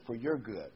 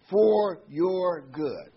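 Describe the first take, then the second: First: Said in the usual way. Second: "for your good" drawn out very slowly, louder and higher; preacher hammers "for your good" slowly; stress on for your good. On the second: Shown as a demonstration. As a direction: lean hard on "for your good", stretching every word. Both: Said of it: "I want to emphasize words".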